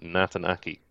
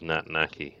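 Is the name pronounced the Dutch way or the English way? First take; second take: English; Dutch. First: The name is said with English pronunciation. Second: The name is said with Dutch pronunciation. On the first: "I believe it's Nathan" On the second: "That's how this guy pronounced it anyways, and he's Dutch"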